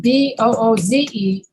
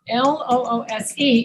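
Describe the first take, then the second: First: Booze ending in a buzzing Z; voiced Z. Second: Loose ending in a hissed S; voiceless S. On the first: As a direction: say booze, voice on through the final Z. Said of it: "B O O Z E is booze". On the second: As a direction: say loose with an unvoiced final S. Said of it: "L O O S E is loose". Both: Shown as a demonstration.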